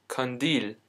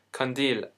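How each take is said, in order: Both takes have the same delivery.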